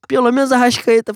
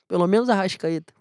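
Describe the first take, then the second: First: Louder, higher emphatic plea. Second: Said in the usual way. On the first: Real, not acted. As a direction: punch it out, pleading loudly. Repeats the wish, second one louder.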